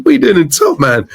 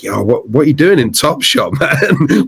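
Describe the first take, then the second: First: Excited repeat. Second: Said in the usual way. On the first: Retold or imitated. To [name] in the shop, excited disbelief. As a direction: ask it again, giddy and disbelieving.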